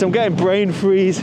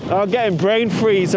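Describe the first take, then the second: First: Getting stressed through wincing pain; brain freeze, again in pain. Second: Wincing from brain freeze; pained by cold headache. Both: Real, not acted.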